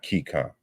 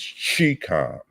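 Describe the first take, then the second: First: The word begins with a 'k' sound. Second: The word begins with a 'ch' sound. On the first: The speaker calls it wrong. "not Keycom" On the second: The speaker calls it right. "it's Chicom"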